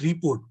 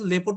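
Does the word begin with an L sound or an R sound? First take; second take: R sound; L sound. First: It starts with an R sound, like report. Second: It starts with an L sound, like lepot. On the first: This is the usual form of the word. "লেপট মানে রিপোর্ট" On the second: This is how the Thai factory staff say it. "তারা রিপোর্টে এমন ভাবে লেপট বলে"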